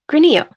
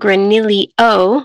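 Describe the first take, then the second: First: The middle has a y sound followed by o. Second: The middle has an l sound followed by io. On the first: The speaker calls it right. "the double L in Spanish turns into a Y sound" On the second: The speaker calls it wrong. "with an actual, like an extra IO"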